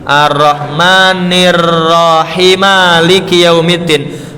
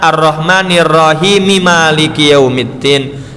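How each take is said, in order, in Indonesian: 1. Huruf m di akhir Rahim langsung menyambung ke Maliki tanpa jeda atau vokal. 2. Rahim tersambung ke Maliki lewat vokal penyambung. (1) "pengen wakaf tapi tidak ngambil nafas" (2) "Nek wasol harusnya dibacanya"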